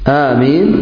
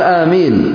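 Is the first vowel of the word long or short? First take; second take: long; short. First: The first vowel is drawn out long. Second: The first vowel is said short. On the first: "آمين مثل ياسين" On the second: "ويقال آمين بالقصر أيضا"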